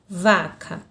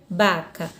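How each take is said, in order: First: The word begins with a V sound. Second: The word begins with a B sound. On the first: This is the Portuguese pronunciation. "Na língua portuguesa eu tenho vaca" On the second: This is the Spanish pronunciation. "Na língua espanhola eu tenho baca"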